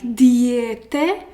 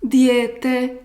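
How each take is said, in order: First: Diete with the E stressed. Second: Diete with a long drawn ie; long accent. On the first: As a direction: hit the E in diete hard. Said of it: "you don't have to, uh, highlight E". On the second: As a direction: stretch the ie in Diete. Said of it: "make this accent long". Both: Shown as a demonstration.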